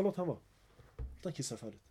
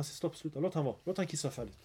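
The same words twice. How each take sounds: First: Much softer, gentle calm instruction; soft, patient repeat of the calming words. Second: Softer, gentle calm correction; calm them down kindly, much softer; soft, patient voice of the Prophet. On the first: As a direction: hush them tenderly, fading away. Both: Retold or imitated. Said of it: "Han lärde honom fint".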